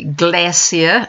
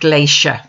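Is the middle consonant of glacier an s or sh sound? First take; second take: s; sh. First: The middle consonant is an s sound. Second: The middle consonant is an sh sound. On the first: The speaker calls it right. "the New Zealand pronunciation is with an S" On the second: The speaker calls it wrong. "not a SH"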